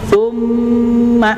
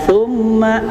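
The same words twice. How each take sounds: First: The m sound is held noticeably longer. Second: The m sound is held only briefly. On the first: The speaker calls it right. "ditahan dua kali lebih lama daripada tasydid biasa" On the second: The speaker calls it wrong. "tidak summa"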